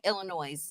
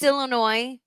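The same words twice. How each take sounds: First: The word ends with a z sound, like noise. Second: The word ends in a silent s, like noy. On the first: The speaker calls it wrong. "mispronouncing a lot of words" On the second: The speaker calls it right. "And it's Illinois"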